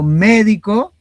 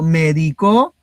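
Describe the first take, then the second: First: The stress is on the first syllable. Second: The stress is on the last syllable. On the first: A professional who practises medicine. "ese es el profesional que se encarga de la medicina" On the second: Someone else gave medicine in the past. "es el del verbo medicar en la tercera persona del singular en pasado"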